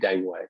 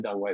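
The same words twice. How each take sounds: First: The name is said with anglicized pronunciation. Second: The name is said closer to Chinese pronunciation. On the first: This is how casual Western fans say it. "they say Deng Wei" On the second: This is not how casual Western fans say it. "they don't say Deng Wei though"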